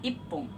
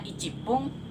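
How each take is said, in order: First: The number is shortened to a single i. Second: The number ichi is said in full. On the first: The speaker calls it right. "dalam menit kita hanya membaca ipung" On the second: The speaker calls it wrong. "Yang seharusnya ichipung"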